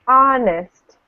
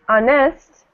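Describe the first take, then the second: First: The stress is on the first syllable. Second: The stress is on the second syllable. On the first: The speaker calls it right. "We say honest, at the beginning" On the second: The speaker calls it wrong. "we don't say honest"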